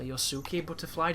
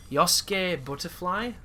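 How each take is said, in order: First: "Yosuke" in three syllables, yo-soo-keh; three-syllable pronunciation. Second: "Yosuke" in two syllables, YOS-keh; two-syllable pronunciation. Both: Shown as a demonstration. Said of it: "depending on the pronunciation".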